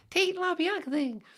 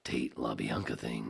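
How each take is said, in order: First: Very high, loud squeaky take; silly high voice. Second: Low, slow announcer delivery; low announcer take. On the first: Host mocking a passerby's answer, silly squeal. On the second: Host restarting the phrase as a promo, low and slow. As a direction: drop it down and draw it out. Same words dropped into low voice. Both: Acted.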